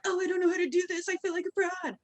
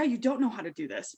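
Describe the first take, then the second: First: High-pitched imitation of a worrier; mock self-doubt. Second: Said in the usual way. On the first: Coach imitating people who feel like frauds, high mock worry.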